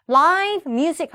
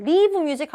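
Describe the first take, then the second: First: "라이브 뮤직" with a long "lai" diphthong; emphatic "라이브 뮤직", rhyming live with five; correct live vowel. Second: "리브 뮤직" with live as "liv"; wrong verb reading. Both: Shown as a demonstration. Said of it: "리브 뮤직 하면 틀려요".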